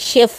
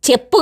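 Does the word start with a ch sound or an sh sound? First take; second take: sh; ch. First: The word starts with an sh sound. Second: The word starts with a ch sound. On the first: The speaker calls it right. "కాదమ్మా అది షెఫ్ అమ్మా" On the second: The speaker calls it wrong. "ఆమెకు పాపం షెఫ్ అననీకి కూడా రాదు"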